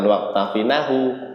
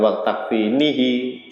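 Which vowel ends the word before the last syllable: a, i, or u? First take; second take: a; i. First: The ending vowel is a, giving takfinahu. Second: The ending vowel is i, giving takfinihi. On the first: "jangan di fathah" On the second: "jangan di kasroh"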